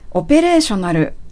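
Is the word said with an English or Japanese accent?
Japanese. It is said with Japanese katakana-style syllables. "カタカナ読みするとそういう単語なんですが"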